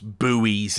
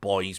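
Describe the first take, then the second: First: It is pronounced the American way. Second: It is pronounced the British way, like 'boys'. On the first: "That's buoys in America" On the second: "but we call them buoys"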